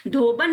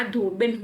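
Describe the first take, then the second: First: धोबन said "dho-ban"; short "a" in the last syllable of धोबन; "-ban" ending on धोबन; wrong vowel. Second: धोबिन said "dho-bin"; short "i" in the last syllable of धोबिन; "-bin" ending on धोबिन; correct vowel. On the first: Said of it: "धोबन नहीं होता". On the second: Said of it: "धोबिन होता है". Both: Shown as a demonstration.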